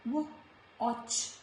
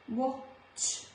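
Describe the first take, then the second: The two takes are said the same way.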